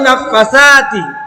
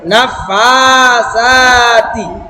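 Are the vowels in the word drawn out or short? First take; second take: short; drawn out. First: The vowels in the word are kept short. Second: Two vowels in the word are drawn out. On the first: The speaker calls it wrong. "অনেকেই আমরা এইভাবে পড়ি নাফাসাতি ফাসাতি তো ফা তো টান দেওয়া হয়নি" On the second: The speaker calls it right. "দুইটা টান আছে"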